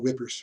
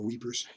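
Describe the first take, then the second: First: The name is said like English 'whippers'. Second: The name is said like English 'weepers'. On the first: "a lot of times the British just call it whippers" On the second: "or weepers"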